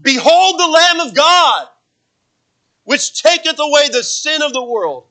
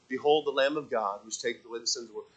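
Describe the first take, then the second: First: "Behold" rung out high and loud, slow and ringing; "Behold the Lamb of God" cried out like an exclamation point; passionate exclamation. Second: Flat, quiet, no passion in "Behold the Lamb of God"; "Behold" and "God" mumbled softly, no exclamation. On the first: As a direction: proclaim it with fire, slowly. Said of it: "you see that there's passion in this". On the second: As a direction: say it dull and low, like a dry reading. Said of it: "He didn't say". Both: Shown as a demonstration.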